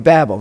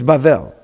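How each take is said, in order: First: The middle consonant is a b sound. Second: The middle consonant is a v sound. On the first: The speaker calls it wrong. "you see in the English, oh, Babel or Babel. Now you know it's not pronounced either of those ways" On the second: The speaker calls it right. "It's Bavel"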